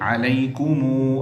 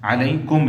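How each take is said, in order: First: The final m is followed by a u vowel. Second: The word ends on a plain m. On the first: The reading continues into the next word. "मिलाएंगे तो पढ़ेंगे" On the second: The reading stops after this word. "वक्फ में मीम साकिन ही पढ़ेंगे"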